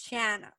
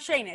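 First: The first vowel sounds like the vowel in 'can'. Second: The first vowel sounds like the vowel in 'say'. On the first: The speaker calls it right. "It's Shanna" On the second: The speaker calls it wrong. "It's not Shayna"

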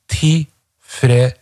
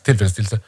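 First: The word is said slowly, with every sound. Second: The word is said fast, with sounds skipped.

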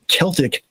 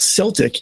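First: The word begins with a hard K sound. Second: The word begins with a soft S sound. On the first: The speaker calls it right. "it's pronounced Celtic" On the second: The speaker calls it wrong. "and not Celtic, even though we have the Boston Celtics"

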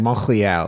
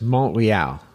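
First: The r sound is a throaty, scraping French r. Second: The r sound is plain, without a throaty scrape. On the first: The speaker calls it wrong. "like I was throwing in like a little hockaloogie in there" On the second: The speaker calls it right. "I think it's just Montreal"

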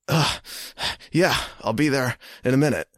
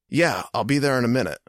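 First: It is said tiredly with heavy breathing. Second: It is said calmly with normal breathing.

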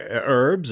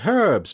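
First: The word starts without an h sound. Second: The word starts with a clear h sound. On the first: This is the American way of saying it. "you Americans say herbs" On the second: This is the British way of saying it. "Brits say herbs because there's a fucking H in it"

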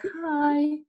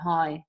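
First: It sounds friendly and higher-pitched. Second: It sounds flat and curt.

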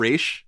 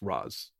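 First: The name ends with an sh sound. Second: The name ends with a plain s sound. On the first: The speaker calls it wrong. "It's not Raish" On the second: The speaker calls it right. "But it's Ra's. There's no H"

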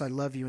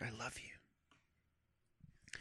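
First: It is shouted loudly. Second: It is whispered softly.

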